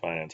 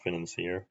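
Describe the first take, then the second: First: The word ends with a 'sir' sound. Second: The word ends with a 'seer' sound. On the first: The speaker calls it wrong. "isn't actually pronounced Financer" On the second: The speaker calls it right. "it's pronounced Financier"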